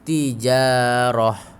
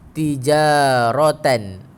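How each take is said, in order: First: The word ends with a short 'ah' sound. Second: The word ends with a full 'atan' sound. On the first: The speaker calls it right. "Yang tepat kalau kita berhenti kena buang titik dan baris" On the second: The speaker calls it wrong. "tak tepat kalau kita berhenti tijaratan bunyi dia"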